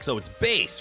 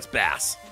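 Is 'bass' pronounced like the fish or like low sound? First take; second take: sound; fish. First: The word is said like the low-sound meaning. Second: The word is said like the fish. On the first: The name refers to low-pitched sound. The speaker calls it wrong. "bass is something that happens in sound, so clearly this is meant to be electronic" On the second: The name is said like the fish. The speaker calls it right. "No, Been just mispronouncing it this whole damn time"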